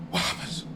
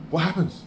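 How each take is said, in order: First: A soft, breathless whisper; stunned whisper. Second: Said in the usual way. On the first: Real, not acted. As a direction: whisper it under your breath. Whispered repeat of a question.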